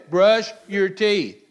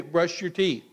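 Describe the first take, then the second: First: "Brush your teeth" slow and louder, each word pressed; firm parent command. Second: Said in the usual way. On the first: Retold or imitated. Parent insisting to a child, slow, loud and firm. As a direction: lay down the law slowly on "Brush". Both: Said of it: "And you say".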